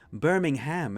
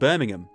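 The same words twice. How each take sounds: First: The final syllable is a full, clear 'ham'. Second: The final syllable is reduced and unstressed. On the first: This is the American way of saying the name. "in America it's it, it's called Birmingham. They really pronounced the ham on it" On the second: This is the British way of saying the name. "But here, where the name actually came from, it's just Birmingham"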